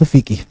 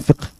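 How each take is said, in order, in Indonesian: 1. Kata itu dilafalkan cara Indonesia. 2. Kata itu dilafalkan cara Arab. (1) "kalau di Indonesia kan itu fikih" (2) "Kalau Arabnya kan fiqh"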